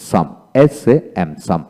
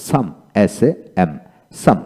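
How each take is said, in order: Both takes have the same delivery.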